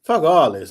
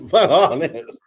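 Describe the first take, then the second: First: A firm, mildly raised fuck all this; mock-tough refusal; defiant retort. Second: "Fuck all this" slower through a laugh; amused repeat of the refusal; laughing retort. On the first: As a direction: push back hard with "fuck all this". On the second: Retold or imitated. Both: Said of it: "I'm like".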